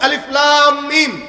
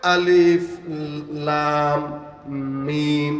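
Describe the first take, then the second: First: The letters are recited smoothly without stopping. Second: The letters are recited haltingly with stops.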